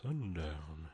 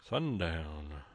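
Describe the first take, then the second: First: Said in the usual way. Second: Low, drawn-out cowboy voice; big deep voice. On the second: Shown as a demonstration. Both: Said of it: "You gotta say that with a big, deep voice".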